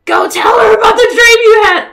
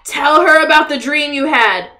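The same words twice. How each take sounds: First: Higher, much louder urging shout; excited shout. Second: Said in the usual way. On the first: Real, not acted. Gamer cheering on her Sim, shouting at the screen. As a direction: yell it at the screen in delight.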